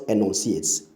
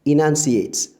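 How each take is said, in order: First: ENUNCIATES said as "eh-NON-see-ates"; short E first and an "on" in ENUNCIATES; mispronounced. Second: ENUNCIATES said as "ih-NUN-see-ates", loud and clear; correct pronunciation. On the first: Teacher showing the wrong enunciates, mispronounced. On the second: Teacher modelling enunciates for listeners, correct pronunciation. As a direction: open "nun" in the middle of ENUNCIATES. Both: Shown as a demonstration. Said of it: "not enunciates".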